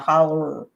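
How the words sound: The word ends with an 'er' sound. "we tend to use the er in place of o"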